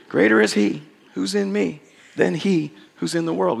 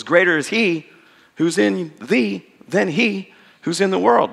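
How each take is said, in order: First: Said in the usual way. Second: Put-on slow, measured recitation of the old verse; King James recitation. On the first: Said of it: "We taught that to our kids". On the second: Shown as a demonstration. A lightly intoned King James recitation. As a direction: savour the rhyme of the King James wording. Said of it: "which rhymes quite nicely".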